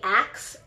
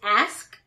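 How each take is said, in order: First: The word ends with a k then s. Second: The word ends with an s then k. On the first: The speaker calls it wrong. "a lot of people say ax, A X. I do" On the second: The speaker calls it right. "Is ask"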